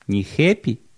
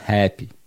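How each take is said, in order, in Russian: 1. Первый гласный уже и менее открыт. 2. Первый гласный широко открыт, между e и a. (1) "Не happy" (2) "а happy. Там должно быть нечто между буквой «э» и буквой «а»"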